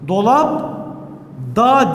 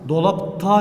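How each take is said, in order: First: The suffix begins with a soft d sound. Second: The suffix begins with a hard t sound. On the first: The speaker calls it wrong. "Dolap da diyemeyiz" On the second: The speaker calls it right. "Dolap ta dememiz lazım"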